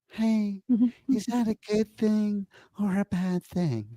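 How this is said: It is said imitating the listener's voice.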